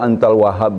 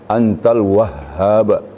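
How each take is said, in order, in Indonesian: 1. Bunyi h pendek dan tunggal. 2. Bunyi h ditahan panjang dan ganda. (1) "Sering orang baca antal wahhab ya. Tidak pakai tasdid" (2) "Dalam doa ada tu antal wahhab"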